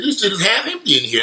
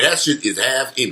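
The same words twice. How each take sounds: First: Higher, incredulous exclaim; retold disbelief. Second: Said in the usual way. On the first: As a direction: replay your own shock at the empty mall. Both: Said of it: "I said".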